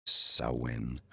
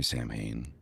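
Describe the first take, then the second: First: Samhain said as SOW-in; Gaelic pronunciation. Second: Samhain said as SAM-hayn; Samhain with an m and a long "hayn"; spelling pronunciation. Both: Shown as a demonstration. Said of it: "however you wanna pronounce it".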